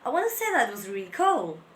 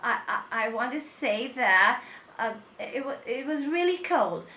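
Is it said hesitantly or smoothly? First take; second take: smoothly; hesitantly. First: It flows smoothly without fillers or restarts. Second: It is broken by fillers and restarts.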